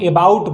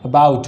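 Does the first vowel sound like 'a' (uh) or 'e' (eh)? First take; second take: e (eh); a (uh). First: The word begins with an 'eh' vowel. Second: The word begins with an 'uh' vowel. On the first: The speaker calls it wrong. "इसको लोग एबाउट बोलते हैं। एबाउट नहीं होता है" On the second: The speaker calls it right. "क्या होता है? अबाउट होता है।"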